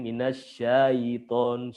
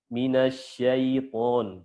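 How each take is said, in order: First: The 'ai' glide is stretched out long. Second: The 'ai' glide is said softly and smoothly. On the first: The speaker calls it wrong. "Atau dipanjangin" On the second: The speaker calls it right. "dibaca lembut"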